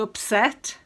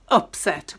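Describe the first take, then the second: First: The stress is on the second syllable. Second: The stress is on the first syllable. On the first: It is used as a verb. "In the verb form, it's uh, to upset" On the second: It is used as a noun. "it's an upset with the stress on the up"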